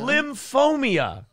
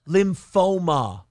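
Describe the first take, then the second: First: An extra 'ee' sound comes before the final 'a'. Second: No extra sound comes before the final 'a'. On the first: The speaker calls it wrong. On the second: The speaker calls it right.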